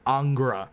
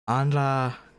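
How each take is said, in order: First: A g sound comes between n and r. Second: The n runs straight into r, no g. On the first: This is how the translation writes the name. "Not Angra. It's interesting why we put the ga" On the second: This is how the Japanese audio says the name. "they pronounce it Anra Mayu"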